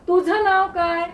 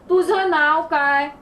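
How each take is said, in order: No difference in how they are said.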